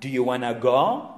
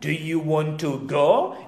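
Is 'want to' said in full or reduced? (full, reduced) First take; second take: reduced; full. First: Want to is reduced to one word, wanna. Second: Want to is said as two full words.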